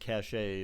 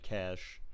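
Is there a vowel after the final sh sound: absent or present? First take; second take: present; absent. First: An extra vowel follows the final sh sound. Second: The word ends on the sh sound. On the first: The speaker calls it wrong. "no one says cachet. That's not what it's called" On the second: The speaker calls it right. "It's pronounced cash, as in like dollars cash"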